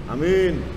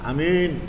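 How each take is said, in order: The two takes are said the same way.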